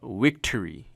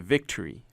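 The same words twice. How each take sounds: First: The word begins with a W sound. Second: The word begins with a V sound. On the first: The speaker calls it wrong. "you don't say uh" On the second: The speaker calls it right. "You say victory, right? With the v v van"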